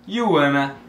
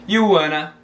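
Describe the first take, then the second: No difference in how they are said.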